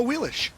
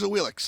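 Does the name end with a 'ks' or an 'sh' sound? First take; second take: sh; ks. First: The name ends with an 'sh' sound. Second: The name ends with a 'ks' sound. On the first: The name is said with respect now that she is played. "it's now a Wheelish" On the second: The name was said casually when she was rarely played. "Back when it was Cuvo thinking about playing her, it was a Wheelix"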